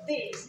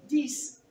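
First: "this" said as the plural "these"; intended word these. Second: "this" with the singular's s ending; mistaken this. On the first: Speaker showing the intended plural, pronounced as these. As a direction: give "this" the sound of plural "these". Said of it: "they are saying instead of this". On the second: Speaker showing a common slip, singular-sounding this. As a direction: say "this" where "these" is meant. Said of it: "they are saying this". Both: Shown as a demonstration.

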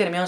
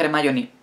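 First: Hermione a la española, "ermión"; pronunciación española. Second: Hermione a la inglesa, "jermáioni"; pronunciación inglesa. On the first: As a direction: decir Hermione sin hache, como "ermión". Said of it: "me va a decir todo el mundo, "No se dice Hermione". (pronunciación castellana de Hermione) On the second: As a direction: decir Hermione con hache aspirada, "jer-MAI-oni". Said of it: "se dice Hermione". (pronunciación inglesa de Hermione) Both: Acted.

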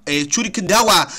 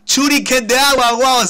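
First: Said in the usual way. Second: Shuriken de agua shouted high, loud and drawn out; excited shout. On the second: Real, not acted. Gamer shouts the new move his Pokémon learned, thrilled and loud. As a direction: belt out the move name in triumph.

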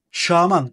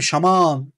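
First: Şaman stressed on the last syllable, man; wrong stress. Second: Şaman stressed on the first syllable, Şa; right stress. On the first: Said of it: "Şaman olmaz değil mi?". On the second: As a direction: hit Şa in Şaman and let man fall. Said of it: "İlk hecede olur". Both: Shown as a demonstration.

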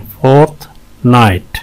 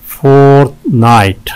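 First: "फोर्टनाइट" with a clear gap between halves; syllable breakdown. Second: "फोर्टनाइट" in two held beats; syllable breakdown. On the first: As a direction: pause in the middle of "फोर्टनाइट". ("फोर्टनाइट" बीच में रुककर) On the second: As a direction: stretch both halves of "फोर्टनाइट". ("फोर्टनाइट" दो खिंचे हिस्सों में) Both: Shown as a demonstration. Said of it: "दो syllables हैं इसमें".

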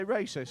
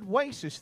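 First: Said in the usual way. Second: "racist" with W for R; mispronounced racist. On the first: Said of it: "I meant to say racist". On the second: Retold or imitated. Comic repeating own slip, "racist" begun with a W. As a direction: say "racist" as "waycist". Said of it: "I said racist then".

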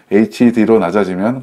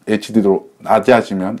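First: Said in the usual way. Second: "에이치디로" slurred, sounds run together like "에치디도"; botched pronunciation. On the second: Real, not acted. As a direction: fumble "에이치디로", swallowing the 이 and softening 로 toward 도. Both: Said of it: "발음이 이상하다".

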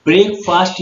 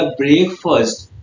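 First: ब्रेकफास्ट said as spelled, brek-FAAST with a long a; ब्रेकफास्ट read the wrong way, the last part as fast; wrong pronunciation. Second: ब्रेकफास्ट said as brek-fəst with a short weak last vowel; ब्रेकफास्ट ends in a quick fəst, not fast; correct pronunciation. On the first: Teacher showing the mistake, ब्रेकफास्ट read with a long fast. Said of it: "ब्रेकफास्ट नहीं". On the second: Teacher giving the right form, ब्रेकफास्ट as brekfəst. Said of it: "इसका pronunciation क्या होगा?". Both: Shown as a demonstration.

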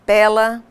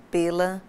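First: "pela" with an open stressed e, "PÉ-la"; open-e péla. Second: "pela" with a closed e, said as the preposition. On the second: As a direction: keep the e in "pela" closed and light. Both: Shown as a demonstration. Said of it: "pares de palavras com grafias idênticas e pronúncias diferentes".

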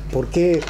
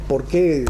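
No difference in how they are said.

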